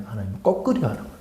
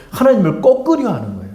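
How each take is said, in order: First: Softer, fast throwaway repeat; hushed rapid echo of the point; quick quiet aside. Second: Said in the usual way. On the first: Acted. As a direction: mutter it again under your breath, quickly. Quick low repeat after statement.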